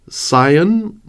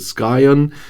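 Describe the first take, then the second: First: The word begins with a plain s sound. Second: The word begins with an sk sound.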